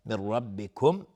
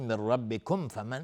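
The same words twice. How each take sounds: First: ربکم ending on a silent closed meem, slowly; stop with silent meem. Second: ربکم flowing on into فمن without a stop; joined recitation. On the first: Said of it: "اگر توقف کردیم با سکون میم". (وقف روی ربکم با میم ساکن) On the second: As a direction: carry the meem of ربکم straight into فمن. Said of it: "اگر عبور بکنیم". (وصل ربکم به فمن بدون توقف) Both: Shown as a demonstration.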